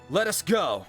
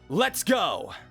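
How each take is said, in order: First: Let and us are said as two words. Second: Let us is contracted to one syllable. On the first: It is a proper, formal way to say it. The speaker calls it wrong. "if I was trying to do it more like" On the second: It is a natural, casual way to say it. The speaker calls it right. "if I was speaking that line, I would say"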